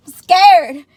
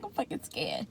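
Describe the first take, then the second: First: High, loud declaration of fear; loud scared admission. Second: Very soft, under the breath; small scared admission. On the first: Patient on the operating table, loudly owning up to fear. Same words repeated out loud. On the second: Patient hearing her heart monitor, hushed scared admission. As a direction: confess it quietly. Retold fear, said small then loud. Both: Retold or imitated.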